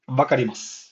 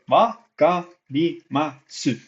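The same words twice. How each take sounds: First: The final u vowel is dropped. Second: The final u vowel is clearly pronounced. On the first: "But you s- only say this" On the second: "it's spelled like this"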